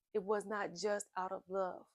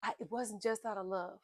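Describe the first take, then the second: First: "was" and "not" pressed firmly, each set apart; stress on was not. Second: Said in the usual way. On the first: Shown as a demonstration. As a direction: lean on "was not" to correct.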